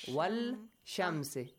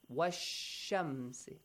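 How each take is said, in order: First: The l is clearly pronounced before sh. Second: The l is dropped and joins into sh. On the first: The speaker calls it wrong. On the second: The speaker calls it right.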